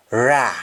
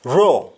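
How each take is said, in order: First: "ra" said RAH; "ra" with open ah; Jamaican ah form. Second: "raw" with rounded aw; "raw" said RAW, lips rounded; English aw form. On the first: Teacher answering in Jamaican, "ra" as rah. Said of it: "we say double A H". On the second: Teacher giving the English word, "raw" with round aw. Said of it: "Instead of A W". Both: Shown as a demonstration.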